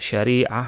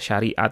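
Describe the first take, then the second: First: The word ends with an H sound. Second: The word ends with a T sound. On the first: This is the original Arabic form. "aslinya dalam bahasa Arabnya" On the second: This is how it is said in Indonesia. "tak marbutah yang dibaca ta"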